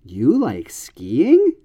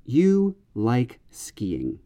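First: Slow, skiing rising at the end; echo question. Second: Slow, falling statement tune on skiing; plain statement. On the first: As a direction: lift skiing up at the end in surprise. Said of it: "the echo question form is". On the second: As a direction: say skiing with a flat falling end. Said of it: "This is a declarative sentence". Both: Shown as a demonstration.

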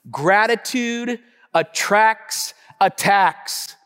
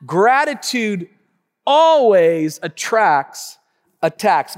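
First: Gratitude attracts attacks slowed; preached point. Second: Gratitude, always attracts, attacks drawn out; slow emphatic point. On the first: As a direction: lean on each word. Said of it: "number one". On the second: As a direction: hammer each word apart. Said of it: "write that down". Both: Shown as a demonstration.

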